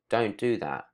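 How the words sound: It is said in a soft, gentle tone. "that was a soft tone to it"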